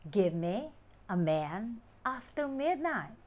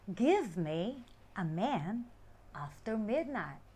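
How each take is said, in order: First: Give me is run together as gimme. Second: Give me is said as two separate words.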